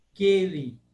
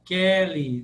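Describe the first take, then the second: First: Keli with a closed E; closed 'e' vowel in Keli. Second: Kelly with an open E; loud, open 'eh' in Kelly. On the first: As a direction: say 'KAY-li' for Keli. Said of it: "Tudo fechado". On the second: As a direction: say 'KEH-li' for Kelly. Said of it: "Nós abrimos esse E". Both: Shown as a demonstration.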